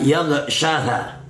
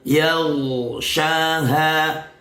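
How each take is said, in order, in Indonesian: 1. Konsonannya diucapkan ringan tanpa ditekan. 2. Konsonannya ditekan dengan kuat dan berat. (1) "Tidak boleh dibaca" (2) "membacanya harus ditekan"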